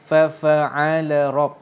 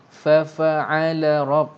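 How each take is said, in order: No difference in how they are said.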